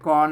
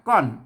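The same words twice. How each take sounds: First: The syllable is said on a level mid tone. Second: The syllable is said with a falling tone. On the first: "เสียงสามัญเนี่ยก้อน" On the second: "ก้อนเสียงโทปกตินะครับ"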